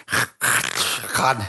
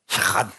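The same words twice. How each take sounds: First: Shakad with a gurgle in the throat; gurgled Hebrew. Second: Said in the usual way. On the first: Shown as a demonstration. Pastor demonstrating the Hebrew sound to the church, with a throaty gurgle. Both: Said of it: "supposed to have a little bit of a gurgle".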